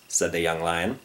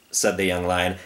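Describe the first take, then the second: No difference in how they are said.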